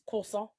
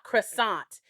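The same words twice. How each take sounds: First: The final t is silent in the word. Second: The final t is sounded in the word. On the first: The speaker calls it right. "You don't pronounce the T, you don't pronounce the R" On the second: The speaker calls it wrong. "it's not croissant"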